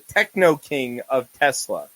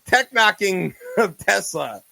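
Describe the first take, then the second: First: The word splits as techno plus king. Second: The word splits as tech plus knocking. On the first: This is the reading the title's owner intends. "what I think he would pronounce as the techno king of Tesla" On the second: This is how other people read the title. "what everybody else looks at and sees tech knocking"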